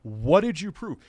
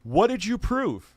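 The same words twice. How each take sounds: First: "did" pushed up, the rest level; stress on did. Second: "What" hit high and loud, slowly; demanding stress on what. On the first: Streamer repeats his challenge to the guest, stress on "did". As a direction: lean on "did" in "What did you prove?". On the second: Streamer challenging the guest's claim, stress on "What". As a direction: hammer "What did you prove?" hard on "What". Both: Real, not acted.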